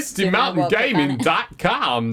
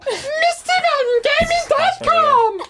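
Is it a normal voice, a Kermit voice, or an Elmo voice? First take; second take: normal; Elmo. First: It is said in his normal voice. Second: It is said in an Elmo voice.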